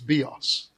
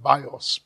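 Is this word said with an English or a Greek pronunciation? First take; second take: Greek; English. First: The word has its Greek pronunciation. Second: The word has its English pronunciation. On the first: "but in the Greek it's bios" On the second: "We pronounce it bios"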